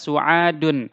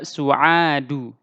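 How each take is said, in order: First: The word ends with an n sound. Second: The word ends on a vowel, without n. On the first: The speaker calls it wrong. "kita tidak baca su'adun" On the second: The speaker calls it right. "tetapi kita baca su'adu"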